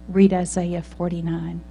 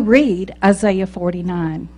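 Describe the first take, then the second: First: It is said somewhat louder, at medium volume. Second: It is said loudly and clearly. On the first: The message is repeated more insistently. "he said a little louder" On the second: The message can no longer be ignored. "loud and clear"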